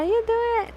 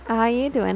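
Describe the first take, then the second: First: Much higher, sing-song take on the line; playful greeting. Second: Said in the usual way. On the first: Pretend. Streamer teasing a chatter with a high playful greeting. Repeats greeting, then plays it up.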